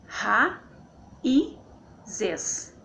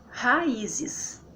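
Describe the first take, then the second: First: "ra, i, zes" with i raised; syllable by syllable. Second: Said in the usual way. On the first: Shown as a demonstration. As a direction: pause between ra, i and zes. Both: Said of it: "Então fica assim".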